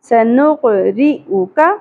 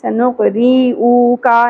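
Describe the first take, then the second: First: The short vowels are kept brief. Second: The short vowels are drawn out too long. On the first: The speaker calls it right. "یہ تینوں حرکات زیادہ نہیں کھینچی جائیں گی" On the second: The speaker calls it wrong. "سنقری او کا نہیں پڑھنا"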